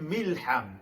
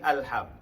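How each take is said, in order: First: It begins with a linked 'mi' sound. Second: It begins with a separate 'a' sound. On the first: The speaker calls it right. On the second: The speaker calls it wrong.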